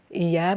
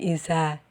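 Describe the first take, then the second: First: It is said with a y sound, standard style. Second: It is said with a z sound, mountain style.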